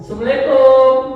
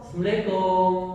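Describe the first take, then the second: First: The greeting is said loudly and high. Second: The greeting is said lower and softer. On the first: "Yang pertama, tekanannya oktavnya sepuluh" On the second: "Yang kedua, bukan naik, turun"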